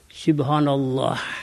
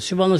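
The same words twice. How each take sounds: First: It is said slowly and carefully. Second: It is said fast and rushed.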